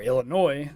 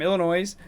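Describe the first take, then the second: First: The final S is silent. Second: The final S is pronounced. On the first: The speaker calls it right. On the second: The speaker calls it wrong. "I keep pronouncing that S"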